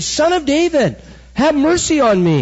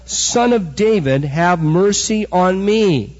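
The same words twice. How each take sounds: First: High-pitched cry for mercy, pushed up sharply; screaming. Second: Said in the usual way. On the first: Retold or imitated. Preacher voicing the blind beggar screaming to Jesus, high cry. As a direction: cry out desperately over a crowd. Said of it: "and he's screaming". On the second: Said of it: "he's screaming".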